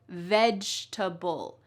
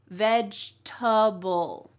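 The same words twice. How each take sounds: No difference in how they are said.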